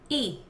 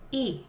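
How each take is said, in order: First: The glottal onset has effort level five. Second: The glottal onset has effort level four.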